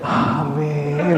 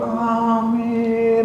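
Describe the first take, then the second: First: It is said breathily, with a sigh. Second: It is said in a sweet, melodious voice.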